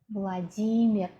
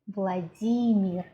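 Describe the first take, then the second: First: It has the Russian stress pattern. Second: The same.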